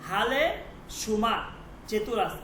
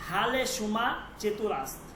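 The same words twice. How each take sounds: The two takes are said the same way.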